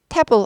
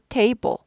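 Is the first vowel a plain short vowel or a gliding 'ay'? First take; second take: plain short; gliding 'ay'. First: The first vowel is a flat vowel without glide. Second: The first vowel glides up into an 'ee' sound. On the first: The speaker calls it wrong. "table 아니고" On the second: The speaker calls it right. "E가 들려야 돼요. E를 올리시면 되죠"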